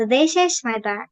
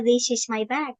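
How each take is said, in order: First: "this is my bag" with a short i in "this"; short, crisp "this", stress on "is"; correct reading. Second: Put-on "this is my bag" read the old wrong way; "this" with a long ee vowel, the way it's usually misread. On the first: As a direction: model the right sound of "this is my bag". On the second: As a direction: show the old habit in "this is my bag". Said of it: "Itu bukan". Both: Shown as a demonstration.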